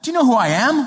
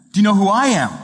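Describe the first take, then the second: First: Indignant. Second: Sly comeback. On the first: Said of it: "she said to the usher". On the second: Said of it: "the usher said to the woman". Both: Retold or imitated.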